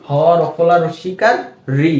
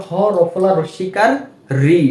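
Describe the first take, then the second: No difference in how they are said.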